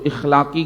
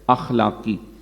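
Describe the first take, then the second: First: The word begins with an 'i' vowel. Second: The word begins with an 'a' vowel. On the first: The speaker calls it wrong. "इखलाकी गिरावट नहीं है" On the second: The speaker calls it right. "बल्कि क्या है? अखलाकी।"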